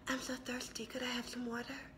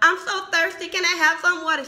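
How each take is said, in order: First: It is said in a soft, understated way. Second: It is said in a loud, dramatic way.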